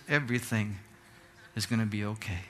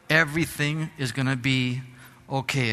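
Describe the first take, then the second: First: Put-on much softer, lower, gentle old man's comfort; soft reassurance. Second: Said in the usual way. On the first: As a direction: hush it down and soothe him, like a kind stranger. Stranger reassures robbed director. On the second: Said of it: "I'm here to tell you".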